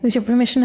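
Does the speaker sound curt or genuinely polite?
curt. The tone is curt with thin politeness. The speaker is leaving regardless of permission. "just informing someone that you're going with a thin veneer of politeness"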